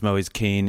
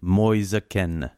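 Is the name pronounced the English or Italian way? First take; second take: English; Italian. First: The name is pronounced the English way. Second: The name is pronounced the Italian way. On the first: This is how the player introduces himself. "he himself does announce himself ... as Moise Kean in English and in French" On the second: This is how people in his home country say it. "in Italy ... where they call him Moise Kean"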